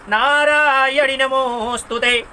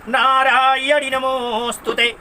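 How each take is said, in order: The two takes are said the same way.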